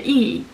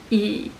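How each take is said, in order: First: The syllable is said with the fourth tone. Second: The syllable is said with the third tone.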